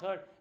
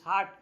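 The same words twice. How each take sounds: First: The vowel sounds like the one in 'hurt'. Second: The vowel is an open 'ah' sound. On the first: The speaker calls it wrong. "some of the children pronounce it heart. It's not heart" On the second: The speaker calls it right. "it's heart"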